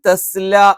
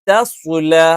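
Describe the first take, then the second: First: Both the first and second consonants sound light. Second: A light first consonant, then a heavy second. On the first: The speaker calls it wrong. "ഒന്നുകിൽ തസ്ല എന്നായി പോവും" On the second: The speaker calls it right. "ആദ്യം തായാണ്, രണ്ടാമത്തേത് സ്വായാണ്"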